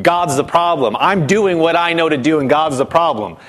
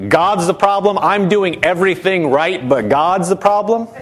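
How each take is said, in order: First: Said in the usual way. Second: Lightly mocking, lifting into a question; mock incredulous. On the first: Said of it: "you feel like". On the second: Preacher showing how foolish blaming God sounds, mock incredulous. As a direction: echo the complaint as if it were foolish. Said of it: "You know how foolish that sounds?".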